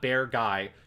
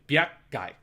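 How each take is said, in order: First: The G follows smoothly without a glottal stop. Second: A glottal stop is placed before the G. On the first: The speaker calls it wrong. "not Bear Guy" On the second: The speaker calls it right. "you have to put the glottal stop in there at the G"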